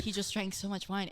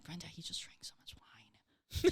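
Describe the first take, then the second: First: Said in the usual way. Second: Hushed, unvoiced aside; retold whisper. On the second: Storyteller confiding to roommate Brenda about the drunk guest, whispered.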